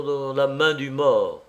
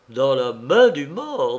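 First: Said in the usual way. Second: Slow, louder question with MAIN leaping up; startled, incredulous question stressing MAIN; shocked echo. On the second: A narrator's reading. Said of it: "Patrice avait sursauté comme au choc".

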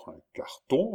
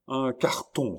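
First: High, rising question; questioning echo. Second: Raised, excited announcement; exclaiming. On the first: Countess repeating the news, asking in surprise. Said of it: "répéta la comtesse". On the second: Chon at the window, exclaiming. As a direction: call out the discovery. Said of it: "s'écria-t-elle". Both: A narrator's reading.

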